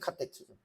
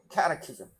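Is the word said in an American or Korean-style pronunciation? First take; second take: Korean; American. First: It is said with a Korean-style pronunciation. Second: It is said with an American pronunciation.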